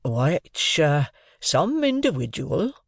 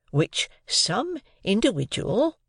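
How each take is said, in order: First: Slow, hesitant "some individual"; hint it gently; polite hint. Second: Slow, higher "some individual"; hint it gently once more; polite hint again. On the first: Joe politely hinting to his wife. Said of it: "Joe politely hinted". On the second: Joe politely hinting again to his wife. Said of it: "Joe again politely hinted". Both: A narrator's reading.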